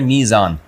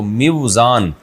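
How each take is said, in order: First: A long first vowel with no w sound. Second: A w sound follows the short first vowel. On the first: "इसको पढ़ा जाता है मीज़ान" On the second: "वज़न करने का आला"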